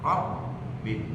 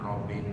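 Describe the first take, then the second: First: The b sound is held and doubled. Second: The b sound is short and single. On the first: The speaker calls it right. "robnya udah aja" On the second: The speaker calls it wrong. "Jangan robin gitu"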